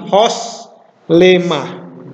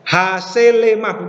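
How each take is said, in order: First: The first vowel is a rounded 'o' sound. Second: The first vowel is an open 'a' sound. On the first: The speaker calls it right. "tapi hos lemah" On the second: The speaker calls it wrong. "bukan hasil lemah bukan ya"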